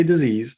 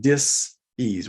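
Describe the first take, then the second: First: Said in the usual way. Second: Dis-ease said slowly as dis then ease; split dis-ease. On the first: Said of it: "I didn't say disease". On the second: Shown as a demonstration. Speaker correcting the viewers, splitting dis-ease slowly into two. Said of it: "I said dis-ease".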